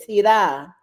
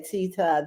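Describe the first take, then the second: First: Tita with a full, open AH ending; local family pronunciation. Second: Tita as TEE-tuh, weak last vowel; first-syllable stress. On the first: Guest showing how Baltimore family says it, Tita as tee-TAH. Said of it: "they say Tita". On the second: Guest showing what family don't say, Tita as TEE-tuh. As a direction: stress the start of Tita, ending in uh. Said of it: "they don't say Tita". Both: Shown as a demonstration.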